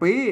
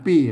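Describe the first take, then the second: First: It carries the tone written with mai tri. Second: It carries the tone written with mai tho. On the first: "ปีใส่ไม่ตี" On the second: "ปีใส่ไม่โท"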